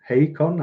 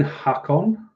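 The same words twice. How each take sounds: First: Hakon with a long AY; second-guess pronunciation. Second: Hakon with a short "hack" start; first-guess pronunciation. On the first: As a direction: say Hakon as HAY-kon, rising in question. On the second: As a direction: say Hakon as HACK-on, stretched and questioning. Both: Shown as a demonstration. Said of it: "don't know how you say that".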